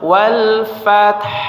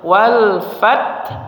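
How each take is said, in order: First: It ends with an audible breathy h after t. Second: It stops at the t with no final h. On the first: The speaker calls it right. "Jadi ada suara udara huruf ha yang terdengar terakhir ya" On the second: The speaker calls it wrong. "Wal fat, kemudian tambah ha"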